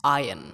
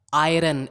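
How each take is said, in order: First: Iron with silent r, AI-un; correct pronunciation. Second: Iron with the r sounded, AI-run; wrong pronunciation. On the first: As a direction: say iron as eye-un. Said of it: "it's iron". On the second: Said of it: "it's not". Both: Shown as a demonstration.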